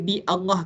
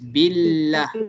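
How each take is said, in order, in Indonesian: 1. Vokal awal Allah dibaca secara terpisah. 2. Vokal awal dihilangkan, kata-katanya disambung. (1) "Kita masih baca dia sebagai bi Allah ke?" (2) "Yang alif kat sini ni terus jadi silent lah kan?"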